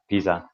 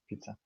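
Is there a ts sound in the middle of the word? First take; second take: no; yes. First: The middle consonant has no ts sound. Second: The middle consonant sounds like ts. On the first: The speaker calls it wrong. "It's not pizza. Pizza would be like uh, the the the leaning tower" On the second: The speaker calls it right. "It's kind of like a T S pizza"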